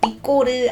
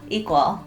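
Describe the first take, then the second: First: It is said with Korean-style sounds, like 'ikkoreu'. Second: It is said with English sounds, like 'ee-kwul'. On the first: The speaker calls it wrong. "너무 적나라한 한국식으로 하다 보니까 ... 이꼬르 아닙니다" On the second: The speaker calls it right.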